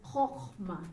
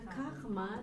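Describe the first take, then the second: First: The first vowel is an O sound. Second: The first vowel is an A sound. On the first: The speaker calls it right. "This is the O sound" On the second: The speaker calls it wrong. "This is not kachma"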